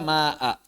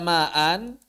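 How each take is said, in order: First: The word ends in a long a, no n. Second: The word ends with an n sound.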